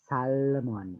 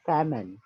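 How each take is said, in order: First: The L sound is pronounced. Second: The L sound is silent. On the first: The speaker calls it wrong. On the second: The speaker calls it right. "L-nya tidak dibaca ya"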